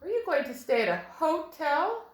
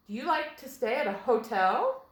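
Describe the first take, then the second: First: "hotel" said HO-tel inside a question; stress on first syllable. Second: "hotel" said ho-TEL inside a question; stress on second syllable. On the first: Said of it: "That sounds a little weird". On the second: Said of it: "Let's try it with the accent on the second syllable". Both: Shown as a demonstration.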